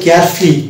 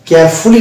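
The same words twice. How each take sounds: First: The vowel after f is silent. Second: The vowel after f is fully pronounced. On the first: The speaker calls it right. "ফকে রয়ের সঙ্গে একসঙ্গে টানতে হবে" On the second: The speaker calls it wrong. "কেয়ারফুলি না বলে"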